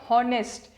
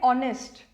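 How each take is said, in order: First: The word starts with a pronounced h sound. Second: The word starts directly with a vowel sound. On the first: The speaker calls it wrong. "Many people जो pronunciation खराब रहती है, we call it हॉनेस्ट" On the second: The speaker calls it right. "जो alphabet आपका silent है उसको silent रखिए, तो वी कॉल इट ऑनेस्ट"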